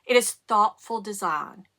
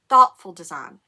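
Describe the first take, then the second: First: Said in the usual way. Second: "Thoughtful" punched loud with falling tune; stress on thoughtful. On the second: Shown as a demonstration. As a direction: hit "Thoughtful" hard, then let it fall.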